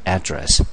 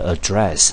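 First: The stress is on the first syllable. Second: The stress is on the second syllable. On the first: "在第一音节你可以念成address" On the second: "你可以念成第二个音节，念成address"

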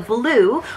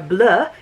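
First: The word is pronounced like English blue. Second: The word is pronounced with a French sound.

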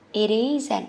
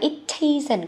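First: The t is softened into a light d sound. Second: The t is pronounced as a full, clear t. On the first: "đọc nhẹ thôi ha" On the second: "Các con đọc là it isn't cũng được"

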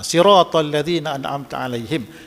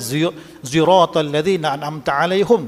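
First: The first word begins with plain s; ends alaihim. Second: The first word has a z-like sound; ends alaihum.

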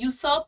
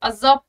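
First: It begins with a 'yoo' sound and an 's'. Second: It begins with an 'uh' sound and a 'z'. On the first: The speaker calls it wrong. "यूसर्प नहीं पढ़ोगे" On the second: The speaker calls it right. "अजर्व पढ़ते हैं"

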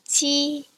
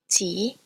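First: It is said with the first tone. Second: It is said with the second tone. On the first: "here are some examples of some words with this first tone" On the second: "The second tone is represented with an acute accent"

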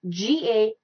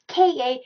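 First: It starts with a softer g-like sound. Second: It starts with a strong, hard k sound. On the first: The speaker calls it right. "it is GA" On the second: The speaker calls it wrong. "instead of KA"

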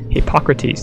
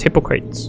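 First: The name does not sound like 'hypocrite'. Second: The name sounds like the word 'hypocrite'. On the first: The speaker calls it right. "that's how you pronounce it" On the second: The speaker calls it wrong. "I would have pronounced it as Hippocrates, but then it sounded like hypocrite"

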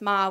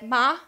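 First: Ma is said plainly, as the question word. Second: Ma is said with the tone meaning mother. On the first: The word marks a question. "just ma would be a question word" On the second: The word means mother. "it would mean mother"

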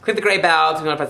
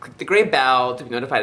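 First: It is spoken quickly. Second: It is spoken slowly. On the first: The speaker calls it wrong. "I talk really fast" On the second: The speaker calls it right. "Let me slow it down"

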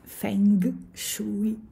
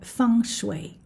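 First: The term is read the way it is spelled. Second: The term is said in its native pronunciation. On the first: "Feng Shui è scritto" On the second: "la pronuncia è"

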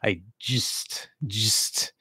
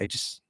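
First: The phrase is said slowly. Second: The phrase is said quickly. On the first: The speaker calls it wrong. "especially speaking more slowly" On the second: The speaker calls it right. "if you're speaking quickly"

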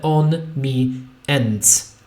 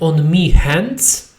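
First: The h at the start of 'hands' is dropped. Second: The h at the start of 'hands' is pronounced. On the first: "dorzuci jeszcze h, które zniknie" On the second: "nie on me hands"

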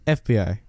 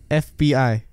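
First: The letters are spoken at an ordinary speed. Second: The letters are spoken slowly and drawn out. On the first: "say it normally" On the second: "Say it slow"

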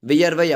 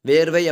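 First: The first part is two syllables, 'vi-yar'. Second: The first syllable is a single long 'ver'. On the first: This is the pure literary form. "தூய தமிழ் சொல்" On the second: This is the everyday spoken form. "பேச்சு வழக்கு"

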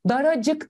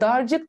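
First: An extra a vowel joins dar and cık. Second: No vowel is heard between dar and cık. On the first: The speaker calls it right. "Daracık diyorum" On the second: The speaker calls it wrong. "darcık demiyorum"

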